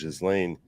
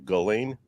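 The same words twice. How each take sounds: First: An S sound is heard inside the name. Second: It sounds like Elaine with a hard G. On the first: "like a soft S. So the S is pronounced" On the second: "like Elaine with a hard G in front of it"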